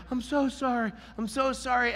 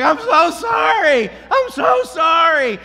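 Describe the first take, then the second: First: High, softened imitation of the owner; sheepish apology. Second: High, loud, drawn-out call; shouted apology. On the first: Owner apologizing once the dog is in, meekly. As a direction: repeat it meekly in a raised voice. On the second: Retold or imitated. Dog owner running toward the walker, shouting apologies. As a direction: holler an apology from down the street.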